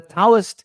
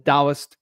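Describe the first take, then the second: First: The word begins with a hard t sound. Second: The word begins with a d sound. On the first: This is the older form still used in Hong Kong. "the Taoist is the older pronunciation" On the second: This is the newer form used in mainland China. "the Taoist is the newer pronunciation"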